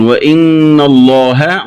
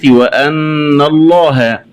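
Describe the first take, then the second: First: Said in the usual way. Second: وأن الله said "wa-anna"; open hamza. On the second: Shown as a demonstration. Teacher showing the variant, وأن with an a-hamza. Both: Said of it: "قرأها بفتح الهمزة".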